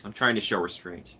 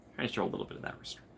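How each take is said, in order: First: Said in the usual way. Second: Fast unvoiced whisper. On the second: Real, not acted. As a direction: whisper it quickly to yourself.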